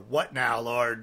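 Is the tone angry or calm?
angry. It is said in an angry tone.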